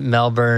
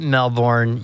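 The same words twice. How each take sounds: First: "Melbourne" said as MEL-bn, with an unstressed, swallowed second syllable; Melbourne reduced vowel. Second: "Melbourne" said as MEL-born, full "born" ending; Melbourne full vowel. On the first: Explaining the other way to say the city, "Melbourne" as MEL-bun. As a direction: clip "Melbourne" to MEL-bun, Aussie style. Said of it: "You can pronounce it Melbourne". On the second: Explaining one way to say the city, "Melbourne" as MEL-born. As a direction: say "Melbourne" with the full "bourne" spelled out. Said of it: "you can pronounce it Melbourne".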